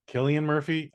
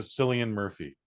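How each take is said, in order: First: Cillian said with a K sound; hard K opening on Cillian. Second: Cillian said with an S sound; soft S opening on Cillian. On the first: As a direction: start Cillian like "kill", questioning. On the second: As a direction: start Cillian like "silly". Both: Real, not acted. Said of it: "I don't know".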